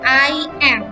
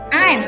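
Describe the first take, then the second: First: It is said as two separate full words. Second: It is said as one contracted syllable. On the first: "Kalau I tidak disingkat I am, maka dia akan baca I am" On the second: "kalau sudah disingkat, dia akan masuk ke I'm"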